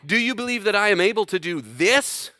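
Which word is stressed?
this. The stress falls on the word this. The question is about whether the particular action can be done. "This action?"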